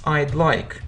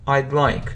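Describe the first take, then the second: First: The word 'would' is shortened to 'd'. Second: The word 'would' is shortened to 'd'.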